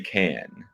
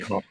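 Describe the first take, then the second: First: The vowel sounds like the one in 'cat'. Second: The vowel sounds like the one in 'cot'. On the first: The speaker calls it right. "I would say can" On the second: The speaker calls it wrong. "You could say con. Yeah, no one's saying con"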